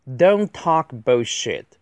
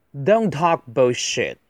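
First: Slow, evenly spaced words; deliberate word-by-word delivery; slow model reading. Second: Said in the usual way. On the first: Shown as a demonstration. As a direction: read it out carefully for learners. Slow model reading, then faster repeat.

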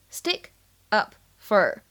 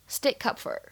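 First: Said in the usual way. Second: "stick up for" run together, k linked into "up", p unreleased; linked, unreleased stop. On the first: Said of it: "我们呢可以读成是". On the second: Shown as a demonstration. Teacher shows learners "stick up for" linked, with p unreleased. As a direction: link "stick" to "up" and hold the p before "for". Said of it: "前两者呢可以做连读".

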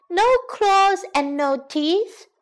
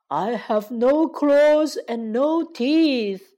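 First: Put-on high, slow, taunting girl voice; mocking girl. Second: Slow, plaintive, drawn-out lion voice; pitiful lion. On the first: Girl mocking the toothless lion, high and taunting. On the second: Acted. Toothless lion appealing to the girl, pitiful and slow. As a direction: plead pitifully, stretching the words. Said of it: "可怜巴巴地说".

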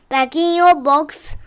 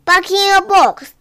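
First: Tuck the pet in kindly; gentle bedtime instruction. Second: Higher-pitched firm order. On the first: Putting the sleeping tortoise away, gentle and easy. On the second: Putting the tortoise to bed, a firm raised order. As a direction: send a naughty pet to bed firmly. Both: Acted.

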